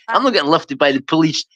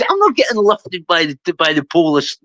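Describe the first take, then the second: First: Said in the usual way. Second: "police" said as POL-iss, stress first; Scottish "polis". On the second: Retold or imitated. Refusing to go along to the hotel, "police" as POL-iss. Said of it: "Sorry, I'm not getting lifted by the police".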